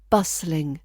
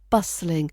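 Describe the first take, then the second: First: The middle T is silent. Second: The same.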